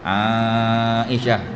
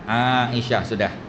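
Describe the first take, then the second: First: The middle vowel is stretched out long. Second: The middle vowel is kept short. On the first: The speaker calls it wrong. "ketawa orang. Tak payah empat harakat lah ya" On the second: The speaker calls it right. "Kalau kita bercakap"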